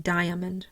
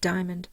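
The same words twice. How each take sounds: First: It is said with three syllables. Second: It is said with two syllables. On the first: "They don't say diamond" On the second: "Most people will just say diamond"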